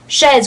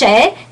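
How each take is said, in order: First: The word ends with a z sound. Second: The word ends without a z sound. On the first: The speaker calls it wrong. "because of you pronounce that z" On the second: The speaker calls it right. "it's chez, good"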